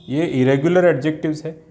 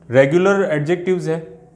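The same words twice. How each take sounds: First: irregular stressed, set against regular; stress on irregular. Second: regular stressed, set against irregular; stress on regular. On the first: Teacher contrasting irregular with regular, stressing irregular. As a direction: lean on irregular to mark the contrast. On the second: Teacher contrasting regular with irregular, stressing regular. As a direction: lean on regular to mark the contrast. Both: Shown as a demonstration.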